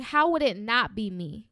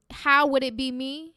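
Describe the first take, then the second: First: Confident rhetorical question, pitched below the doubting version; self-affirming question. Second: Self-doubting question. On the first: Host showing listeners what to start saying, self-affirming. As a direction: turn the doubt round with assurance. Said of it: "I want you to start saying". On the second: Host showing listeners what to stop saying, self-doubting. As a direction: ask it as if counting yourself out. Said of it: "Instead of saying". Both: Shown as a demonstration.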